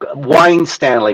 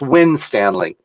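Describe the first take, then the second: First: The first syllable sounds like 'wine'. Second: The first syllable sounds like 'win'. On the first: "the wine Stanley was what I got" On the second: "it's pronounced Winstanley"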